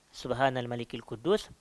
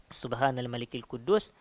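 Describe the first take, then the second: Both takes have the same delivery.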